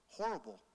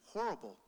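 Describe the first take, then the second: No difference in how they are said.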